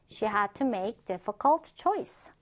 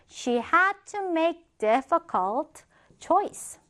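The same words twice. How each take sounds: First: Said in the usual way. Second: Slow, higher, word-by-word reading; slow model reading. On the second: Shown as a demonstration. Teacher first models the example sentence for learners, slow model reading. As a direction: read it out slowly, drawing out each word.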